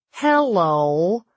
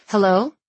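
First: Drawn-out mock American accent, rising; mimicked American accent. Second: Said in the usual way. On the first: A narrator's reading. Noah echoes her phone greeting in mock American accent. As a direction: imitate her American accent, stretching the word. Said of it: "mimicking my American accent".

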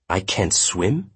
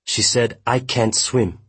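First: Slow echo, rising sharply on "swim"; stunned questioning echo with "swim" rising; disbelieving question. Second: Higher-pitched, falling statement; agitated, raised-pitch statement; upset report. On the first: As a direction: repeat it slowly as a question, lifting "swim". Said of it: "Jundo asked". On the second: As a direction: report it in distress, falling at the end. Gil reports the victim's words. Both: A narrator's reading.

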